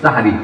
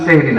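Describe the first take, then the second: First: It is said with three syllables, starting 'sa'. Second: It is said with two syllables, starting 'seh'. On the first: The speaker calls it right. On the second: The speaker calls it wrong. "আসলে সেহরি না"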